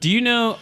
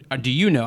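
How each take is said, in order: First: Know lifted high and leaned on; stress on know. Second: You stressed, know falls away. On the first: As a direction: ask "Do you know" punching know. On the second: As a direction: ask "or do you know" leaning on you. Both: Shown as a demonstration. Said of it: "contrasts stress on know then you".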